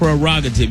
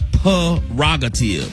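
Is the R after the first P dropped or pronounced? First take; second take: pronounced; dropped. First: The R after the first P is pronounced. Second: The R after the first P is dropped. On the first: The speaker calls it right. "You got to pronounce the R" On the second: The speaker calls it wrong. "It's not prerogative"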